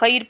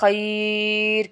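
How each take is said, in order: First: The vowel is short, not lengthened. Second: The vowel is drawn out and lengthened. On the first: "खैर पढ़ने की बजाय" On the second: "खैर खींच कर पढ़ा है"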